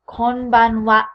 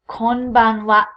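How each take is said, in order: Both takes have the same delivery.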